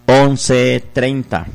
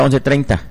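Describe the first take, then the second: First: Slow and deliberate. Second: Said in the usual way. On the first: Shown as a demonstration. Radio host dictates the donation number to listeners, slowly. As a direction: stretch out each number slowly.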